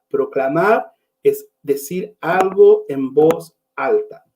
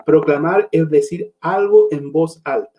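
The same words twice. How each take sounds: First: Slow, word by word, spelling it out; slow emphatic repeat. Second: Said in the usual way. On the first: Shown as a demonstration. Preacher repeats his definition slowly for the congregation. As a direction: let each word land for the congregation.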